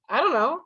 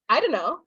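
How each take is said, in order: First: The words are heavily reduced, nearly mumbled. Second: The words are run together and reduced. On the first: The speaker is very casual. "But then we get even lazier" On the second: The speaker is more casual. "we're even lazier"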